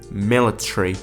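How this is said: It is said in a British accent. "In British accent it would sound like military"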